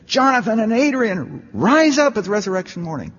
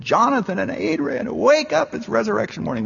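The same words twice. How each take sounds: First: High mock call to the dead, rise up peaking loudest; calling out to the graves, half-mocking; pitched-up shout at a tombstone; retold shout. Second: High call to the dead, straining on wake up; shouting with all my might at the graves; pitched-up call, pushed harder than the first try; louder retold shout. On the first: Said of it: "I went over there and I shouted". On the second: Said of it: "I shouted more loudly".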